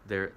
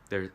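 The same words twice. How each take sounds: The two takes are said the same way.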